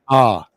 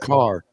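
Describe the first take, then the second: First: The final R sound is dropped. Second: The final R sound is pronounced. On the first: "They say ah, ... They drop it" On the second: "they don't say"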